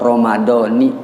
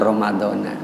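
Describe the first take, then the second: First: The word ends with an 'i' vowel. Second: The word ends with an 'a' vowel. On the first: The speaker calls it right. "bil kasri dengan kasroh Ramadhani" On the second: The speaker calls it wrong. "jangan Ramadhana ya"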